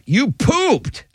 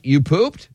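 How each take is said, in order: First: The voice falls at the end, as a statement. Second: The voice rises at the end, as a question.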